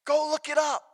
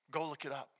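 First: Raised, high-pitched urging; insistent challenge. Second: Low, soft throwaway challenge; quiet aside. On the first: Preacher urges congregation to Scripture, raised insistent voice. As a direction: lift the voice and press it home. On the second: Preacher sends congregation to Scripture, quiet and low. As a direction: drop the voice right down. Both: Real, not acted. Same challenge repeated, building in force.

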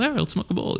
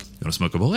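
First: High-pitched acted yes; mock eager agreement. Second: Lightly acted invitation to a stranger; mock casual offer. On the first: Cool dude answers promoter at the bar, high eager agreement. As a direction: jump up in pitch as the keen reply. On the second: Promoter to a cool dude at the bar, low casual offer.

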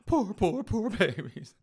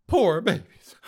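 First: Higher, repeated sarcastic cooing; mock pity. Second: High, loud sarcastic sympathy; mock pity. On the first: Host mocking offended islanders with repeated fake sympathy. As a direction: pat them on the head with fake pity. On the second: Host mocking offended islanders with loud sarcastic pity. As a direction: coo it like consoling a spoiled child.

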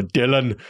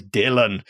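First: Put-on a light Austrian accent on "Dylan"; Arnold Schwarzenegger accent. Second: Said in the usual way. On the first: Showing viewers how Arnie says the name, light Austrian accent. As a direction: say "Dylan" with a mild Austrian action-star accent. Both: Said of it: "as, uh, Arnold Schwarzenegger says".

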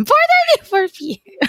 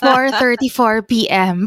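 First: Much higher, teasing exact time; high mock precise. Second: Said in the usual way. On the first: Shown as a demonstration. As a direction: squeak it out as a joke.

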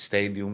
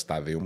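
First: "Stadium" said carefully the English way; slow, deliberate English "Stadium"; English pronunciation. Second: "stadium" read as it is spelled; quick, lower-pitched "stadium" with a spelled-out reading; misreading pronunciation. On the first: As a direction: pronounce "Stadium" as in English, slowly. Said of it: "Είδες, δεν είπα stadium". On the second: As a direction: say "stadium" letter by letter, Greek-style. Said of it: "δεν είπα stadium". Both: Shown as a demonstration.

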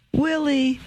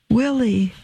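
First: Higher and softer, breaking with joy; his name again, overcome and tender; rising joy. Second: First cry of his name, high and falling; a mother stunned to see her son; startled joy. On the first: Mother embracing her son, higher, softer, overjoyed. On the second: Mother spotting her son, startled cry. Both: Acted.

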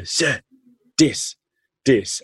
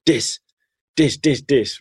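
First: "this" said as "dis", bright and excited; an eager kid saying "this" as "dis"; kid pointing, mispronouncing TH. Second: "Dis, dis" with a d in place of th, higher and excited; eager "dis" for this. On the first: Teacher imitates student Stunzen calling out "dis". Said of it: "he couldn't pronounce the T H". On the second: Teacher imitates the boy pointing at his shoes, eager "dis". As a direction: point at your shoes and chirp "dis" like a happy kid. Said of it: "He'd point to his shoes and goes". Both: Retold or imitated.

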